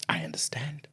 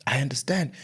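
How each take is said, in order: First: Hushed, voiceless whisper. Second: Said in the usual way. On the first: Real, not acted. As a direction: say it under your breath in a whisper. Whispered, then repeated aloud.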